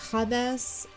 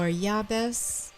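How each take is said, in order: First: The name begins with an H sound. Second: The name begins with a Y sound. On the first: "a J that's pronounced like an H" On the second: "or a Y"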